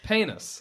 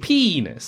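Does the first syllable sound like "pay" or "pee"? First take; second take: pay; pee. First: The first vowel sounds like "pay". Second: The first vowel sounds like "pee". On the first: The speaker calls it wrong. "So you're adding like an A" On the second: The speaker calls it right. "But go P"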